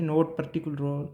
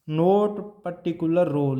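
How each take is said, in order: First: Said in the usual way. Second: Very slow, word by word; slow dictation. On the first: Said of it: "restated in passing". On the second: Shown as a demonstration. Teacher giving the class a point to write, slowly. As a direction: dictate it for notes. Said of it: "teacher dictating, later restated".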